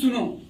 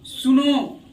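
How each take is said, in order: First: The final vowel is short and clipped. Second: The final vowel is long and drawn out.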